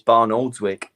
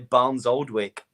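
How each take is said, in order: First: It begins with 'Barn', followed by 'Oldswick'. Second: It begins with 'Barnes', followed by 'Oldwick'. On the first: The speaker calls it right. "and it's Barn Oldswick" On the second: The speaker calls it wrong. "you always say Barnes Oldwick"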